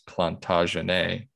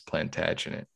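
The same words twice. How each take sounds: First: The word is said with a French pronunciation. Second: The word is said with an English pronunciation. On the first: "the French pronunciation is" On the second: "the English is"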